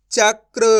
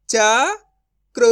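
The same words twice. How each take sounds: First: चक्र joined as "chakr", loud; blended whole word. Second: चक्र broken as "cha... kra", long pause, loud; syllable by syllable. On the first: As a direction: read चक्र in one go without a break. (चक्र को जोड़कर एक साथ बोलें) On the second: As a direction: sound out चक्र very slowly in two parts. (चक्र को "च... क्र" तोड़कर धीरे बोलें) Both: Shown as a demonstration. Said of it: "direct मात्रा का उच्चारण करके पढ़ेंगे".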